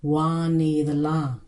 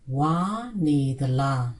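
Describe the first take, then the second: First: The first word has a low tone. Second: The first word has a high tone.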